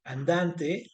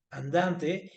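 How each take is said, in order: First: Teacher slowly spelling out "andante" as a rhyme example; slow drawn-out demo word. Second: Said in the usual way. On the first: Shown as a demonstration. Teacher to class, demonstrating a rhyme word, slow and drawn out. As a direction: stretch "andante" out slowly, syllable by syllable. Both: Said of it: "si yo digo".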